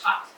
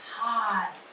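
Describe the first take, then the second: First: The word is said quickly as one whole. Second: The word is sounded out slowly, sound by sound. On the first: "Say it fast" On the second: "I'm going to go like this"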